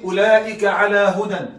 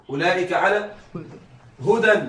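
First: Said in the usual way. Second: على rising, then a pause before هدى; pause after على. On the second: Shown as a demonstration. Teacher to students, pausing on على. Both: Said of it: "على، ما المعنى الحقيقي لعلى؟".

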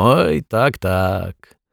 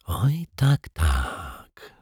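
First: Said in the usual way. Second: Much softer, breathed whisper; detective whispering the echo in disbelief. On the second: A narrator's reading. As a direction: whisper it to yourself. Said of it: "szepnął detektyw Pozytywka".

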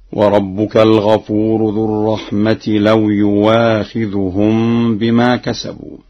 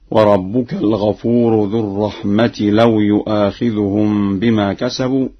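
First: يؤاخذهم recited "yuwaakhidhuhum" with a clear w; hamza as pure waw. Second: Said in the usual way. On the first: Shown as a demonstration. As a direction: glide through يؤاخذهم with w, no glottal catch. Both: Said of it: "بإبدال الهمزة واوا خالصة هكذا".

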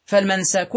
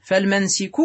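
First: فالمنسك as fal-mansak, a on the sin; fatha form. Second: فالمنسك as fal-mansik, i on the sin; kasra form. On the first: Teacher restating the regular form, فالمنسك said fal-mansak. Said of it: "منسكا قياسا". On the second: Teacher restating the irregular form, فالمنسك said fal-mansik. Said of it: "ومنسكا شذوذا". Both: Shown as a demonstration.

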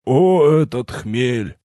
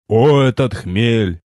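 First: Put-on slow, pitiful old man drawl; unsure and pitiful. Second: Put-on slow solemn proclamation, old voice; wise old sage. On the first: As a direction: draw it out weakly, unsure. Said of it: "неуверенно и жалко протянул". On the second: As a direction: declaim it grandly and slowly. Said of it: "Торжественность поугасла".

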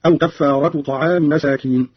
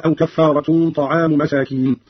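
First: كفارة without final n, طعام ending in -i; no tanween, genitive. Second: Said in the usual way. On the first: Shown as a demonstration. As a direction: say "kaffaaratu ta'aami" for كفارة طعام. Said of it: "قرأ قالون بدون تنوين وطعام بالخفض هكذا". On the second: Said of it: "بدون تنوين وطعام بالخفض".

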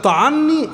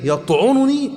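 First: "طعني" pitched high, a after the ع, ta'anni; fatha on the ayn. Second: "يطعنني" pitched high, u after the ع, yat'ununi; damma on the ayn. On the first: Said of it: "دي بتعني الطعن المعنوي". («طعني» بفتح العين) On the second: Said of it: "بضم العين". («يطعنني» بضم العين) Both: Shown as a demonstration.

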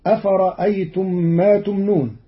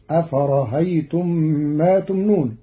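First: Said in the usual way. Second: أفرأيتم said afarahaytum, the hamza softened toward a breathy h; eased hamza. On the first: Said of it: "قرأ قالون كلمة أفرأيتم". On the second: Shown as a demonstration. Teacher shows Qalun's أفرأيتم with the eased hamza. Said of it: "بتسهيل الهمزة بين بين".

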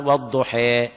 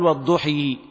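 First: والضحى with the final alif leaned toward i, weduħe; والضحى بالإمالة; imala demo. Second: والضحى with the ending pushed all the way to ii, lweduħii; والضحى بكسر مبالغ فيه; overdone imala. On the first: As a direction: say والضحى with a moderate imala ending in e. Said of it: "يعني مثلا نقول مثلًا". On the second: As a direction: exaggerate the kasra at the end of والضحى. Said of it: "لا يبالغ في الكسر". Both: Shown as a demonstration.

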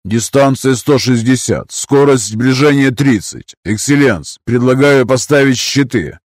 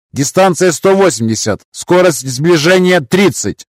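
First: Officer reporting calmly; combat callout. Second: High crisp operator voice; combat callout. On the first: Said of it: "предложил Карстен". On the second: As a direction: ship operator reporting. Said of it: "доложил оператор Грэб". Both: Acted.

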